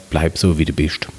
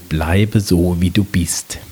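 First: It is said with a Palatinate dialect accent. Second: It is said in Standard High German.

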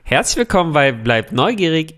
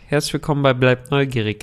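First: The greeting is said with lively enthusiasm. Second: The greeting is said with little enthusiasm. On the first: The speaker calls it right. "Sehr gut" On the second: The speaker calls it wrong. "Selbst die im Fastfood-Restaurant sind euphorischer"

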